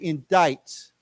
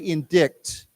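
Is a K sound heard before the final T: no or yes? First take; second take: no; yes. First: No K sound; it ends like "ite". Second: A K sound is heard before the T. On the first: The speaker calls it right. "We say indict, like it's like I T E" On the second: The speaker calls it wrong. "We don't say indict"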